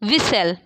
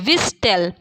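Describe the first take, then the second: First: The t sound is silent in the middle. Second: The t sound is pronounced in the middle.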